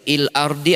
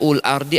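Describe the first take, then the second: First: The word begins with an i vowel. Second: The word begins with a u vowel. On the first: "tidak mungkin dibaca il ardi" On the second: "tidak bisa"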